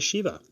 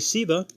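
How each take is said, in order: First: The word begins with an sh sound. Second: The word begins with a plain s sound. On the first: "some say Shiva" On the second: "some say Siva"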